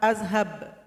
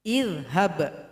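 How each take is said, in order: First: The word begins with an a vowel. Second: The word begins with an i vowel. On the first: The speaker calls it wrong. "Nggak boleh dibaca A" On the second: The speaker calls it right. "hamzah wasal bunyinya I"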